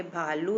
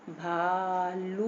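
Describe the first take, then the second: First: Said in the usual way. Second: भालू very slow, "bhaaa-looo"; long drawn-out vowels. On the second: Shown as a demonstration. Teacher showing long aa and u take time, stretched syllables. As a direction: hold both vowels of भालू. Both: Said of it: "भालू को भी बोलने में time लगेगा".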